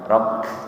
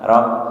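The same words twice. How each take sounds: First: The r is pressed and held steady. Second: The r bounces with repeated taps. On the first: The speaker calls it right. "hanya ditekan rok" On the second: The speaker calls it wrong. "bukan rok"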